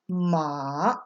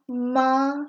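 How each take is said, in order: First: It is said with the third tone. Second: It is said with the first tone. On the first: It means horse. "when you go down the tone list" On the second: It means mom. "when you go down the tone list"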